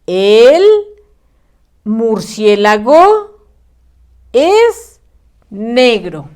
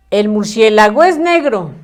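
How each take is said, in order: First: El, murciélago, es, negro, each word set apart by a clear pause. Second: El murciélago es negro run together with no gaps between words; read all run together. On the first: Teacher showing pupils the right reading, slow word by word. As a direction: dictate slowly with a gap after every word. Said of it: "Debe de decir". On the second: Teacher showing pupils the wrong reading, words run together. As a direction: read it as one blurred chunk, the wrong way. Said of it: "Muy mal leído, muy mal escrito". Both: Shown as a demonstration.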